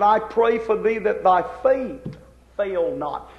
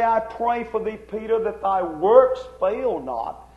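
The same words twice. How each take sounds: First: "faith" drawn out, then held apart; stress on faith. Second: "works" stretched slowly as the contrast; stress on works. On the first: Preacher giving what Jesus said, stress on "faith". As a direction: land slowly on "faith" as the true word. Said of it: "He said". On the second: Preacher correcting a misquote of Jesus, stress on "works". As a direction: lean on "works", the word not said. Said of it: "So Jesus didn't say". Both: Shown as a demonstration.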